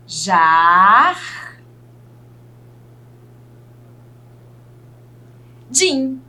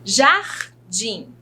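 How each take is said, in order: First: "Jar", held long, a long pause, then "din"; teacher slowly sounding out "Jar-, din"; syllable by syllable. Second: Said in the usual way. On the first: Shown as a demonstration. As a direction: split "Jardim" into two separate syllables. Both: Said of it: "separar aqui em sílaba essas palavrinhas".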